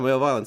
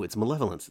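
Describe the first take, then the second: First: It is said as two words, male violence. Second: It is said as one word, malevolence. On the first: The speaker calls it wrong. "every time I look at it, I'm like, oh yeah, male violence" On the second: The speaker calls it right. "no, it's malevolence"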